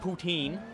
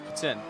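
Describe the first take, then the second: First: The last syllable sounds like teen. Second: The last syllable sounds like tin. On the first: The speaker calls it wrong. "It's not poutine" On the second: The speaker calls it right. "It's like if you're saying tin"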